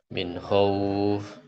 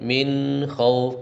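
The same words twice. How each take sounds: First: The n sound is cut off abruptly. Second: The nasal n sound flows on briefly. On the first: The speaker calls it wrong. "enggak min khauf" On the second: The speaker calls it right. "tapi mengalir suaranya juz'i sebahagiannya min khauf karena dia punya sifat gunah"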